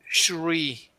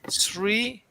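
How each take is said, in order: First: The word begins with an SH sound. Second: The word begins with a plain S sound. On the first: The speaker calls it wrong. "Not Shri. Not with S H" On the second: The speaker calls it right. "not with S H, but with S R I"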